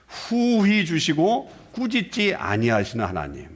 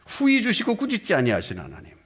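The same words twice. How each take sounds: First: 후히 drawn out slowly, each word weighed; slow emphatic reading. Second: 후히 stressed, the phrase ends on a fall; falling repeated reading. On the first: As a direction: read 후히 주시고 slowly and deliberately. (후히를 천천히 힘주어) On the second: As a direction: say it again with 후히 leading. (후히를 강조하며 내려 읽기) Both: Shown as a demonstration.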